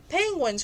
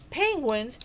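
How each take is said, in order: First: Higher, exclaimed in mock astonishment; surprised exclamation. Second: Mildly puzzled, asking the word back; lightly questioning the strange word. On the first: Polar bears repeating the strange word, mock surprised exclamation. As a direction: blurt the word out, amused surprise. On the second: Acted. Polar bears hearing an unknown word, mild puzzled question. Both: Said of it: "cried the polar bears".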